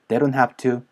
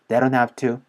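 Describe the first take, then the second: The two takes are said the same way.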